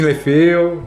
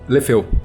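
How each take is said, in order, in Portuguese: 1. A palavra é dita com sotaque fingido. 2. A palavra é dita com voz normal.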